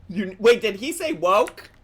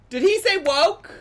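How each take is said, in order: First: Raised pitch, checking what was heard; a startled question, a little louder; surprised double-take. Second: Very high, loud disbelief; loud incredulous repeat. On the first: Reacting to the clip's word, surprised. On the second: Repeating the question about the clip, incredulous. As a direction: escalate the question into an astonished cry. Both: Real, not acted.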